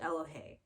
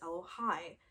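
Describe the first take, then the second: First: The name ends with an 'ay'-like vowel. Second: The name ends with an 'eye'-like vowel. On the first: This is how the owner of the name says it. The speaker calls it right. "I pronounce it Elohe" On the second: This is a guess from reading the spelling. The speaker calls it wrong. "some of you might say, that's Elohai"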